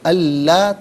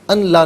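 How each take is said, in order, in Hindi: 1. n दोहरे l की आवाज़ में मिल जाता है। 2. n की आवाज़ la से पहले अलग से बोली जाती है। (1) "बल्कि अल्लाह पढ़ेंगे" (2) "अन ला नहीं"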